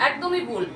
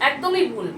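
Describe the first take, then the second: No difference in how they are said.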